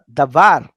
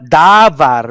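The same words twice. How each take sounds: First: The stress is on the last syllable. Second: The stress is on the first syllable. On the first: The speaker calls it right. "but davar, because last syllable" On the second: The speaker calls it wrong. "not davar"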